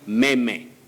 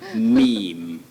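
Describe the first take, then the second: First: The word is pronounced just as it is spelled. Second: The word is pronounced the usual English way. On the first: The speaker calls it wrong. "mispronouncing it the way it is spelled" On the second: The speaker calls it right. "But you say meme"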